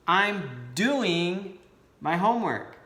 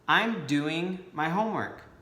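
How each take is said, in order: First: It is said with strong, energetic emphasis. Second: It is said plainly, without extra emphasis.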